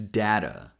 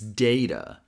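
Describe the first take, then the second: First: The first vowel sounds like the one in cat. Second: The first vowel sounds like the one in day. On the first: "D A sounds like da, the same as sound we have in cat" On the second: "D A sounds like day, which rhymes with hey"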